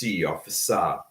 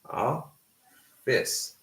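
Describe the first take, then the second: First: The word ends with an added vowel. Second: The word ends in a consonant sound. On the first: The speaker calls it wrong. "they will add uh, a vowel sound at the end" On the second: The speaker calls it right. "We have a flat sound, so it's office"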